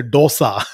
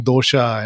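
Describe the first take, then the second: First: "dosa" with a plain s, no sh; North Indian pronunciation. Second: "dosha" with sh in place of s; Kerala pronunciation. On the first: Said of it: "And North India, they, they say". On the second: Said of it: "you keep saying dosha". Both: Retold or imitated.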